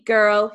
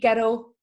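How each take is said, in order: First: The r in the word is plain. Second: The r in the word is rolled. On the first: "instead of saying" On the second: "they'd say it with the R rolled like that"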